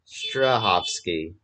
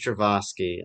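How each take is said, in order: First: The name is said as Strahovski. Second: The name is said as Stravosky. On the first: The speaker calls it right. "it's Strahovski" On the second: The speaker calls it wrong. "I thought it was Stravosky"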